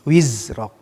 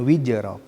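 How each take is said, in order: First: The middle consonant is a clear z sound. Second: The middle consonant sounds like a j. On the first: The speaker calls it right. "Wizrok, bukan wijroknya itu" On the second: The speaker calls it wrong. "bukan wijrok ya"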